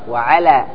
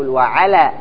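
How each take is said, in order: No difference in how they are said.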